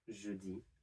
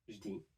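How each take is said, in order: First: The vowel in je is pronounced. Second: The vowel in je is dropped.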